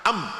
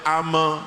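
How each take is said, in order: First: It ends sharply on the m sound. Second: An extra vowel follows the m sound. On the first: The speaker calls it right. "Ini juga harus tekan cepat" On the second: The speaker calls it wrong. "tidak boleh ame"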